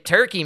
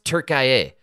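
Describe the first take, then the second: First: The name is said as Turkey, with two syllables. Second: The name is said as Turkiye, with three syllables. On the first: The speaker calls it wrong. "If you just say Turkey, man, it sounds delicious" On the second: The speaker calls it right. "they mispronounced it. It's Turkiye"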